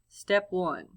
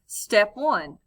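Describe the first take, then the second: First: It is read flatly in a monotone. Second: It is read with lively, varied expression. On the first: "a very monotone voice" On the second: "with expression um, and prosody the way that it's meant to be read"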